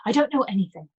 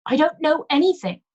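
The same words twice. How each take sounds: First: Level, flat and closed; a flat, shut-down denial. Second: High, loud shrill denial; shrill it out in panic; shrill, loud repeat of the denial. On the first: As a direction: say it flat, shutting the topic. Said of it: "Her voice was flat". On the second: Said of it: "she repeated shrilly". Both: Acted.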